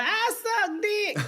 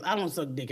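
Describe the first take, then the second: First: High, slow hollered punchline; crude stage persona. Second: Said in the usual way. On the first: Retold or imitated. Comic mocking her old jokes, high hollered punchline.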